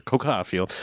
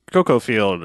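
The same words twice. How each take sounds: First: "cocoa" ending in an open ah, lower and softer; coca pronunciation. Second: "cocoa" with a long o at the end, drawn out; cocoa pronunciation. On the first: Podcaster correcting the crop's name, "cocoa" said KOH-kah. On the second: Podcaster naming the crop on the photographs, "cocoa" said KOH-koh. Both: Shown as a demonstration. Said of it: "I have to say that right".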